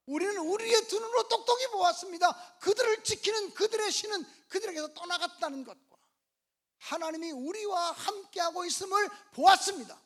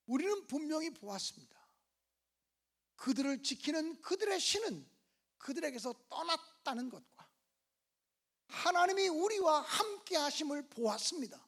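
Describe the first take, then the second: First: Loud, high-pitched declaration of faith; impassioned preacher's shout; rousing proclamation. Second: Said in the usual way. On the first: Acted. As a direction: proclaim it at full force to win an amen. Repeats the report forcefully for amen.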